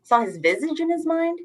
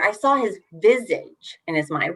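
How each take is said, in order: First: "mind" naik seperti bertanya; questioning stress on mind. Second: "saw" diberi tekanan; stress on saw. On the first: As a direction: ask it, lifting mind at the end. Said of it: "what's going on here?". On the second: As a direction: lean on the word saw, then read on plainly. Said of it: "stress or emphasize that word". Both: Shown as a demonstration.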